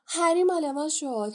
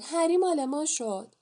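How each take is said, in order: First: Higher, louder gleeful shout; the twins cheer as Harry joins their house. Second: The twins keep cheering across the hall. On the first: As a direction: yell it in triumph over the crowd. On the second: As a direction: chant it again in triumph. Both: A narrator's reading.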